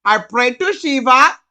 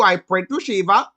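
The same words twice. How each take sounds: First: Put-on louder Indian accent with a rising tune. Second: Put-on calm Indian accent, said matter-of-factly. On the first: Hindu man insisting to the narrator, in a loud Indian accent. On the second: Hindu man explaining his faith, calm Indian accent. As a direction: state the prayer plainly in an Indian accent. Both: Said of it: "he was like".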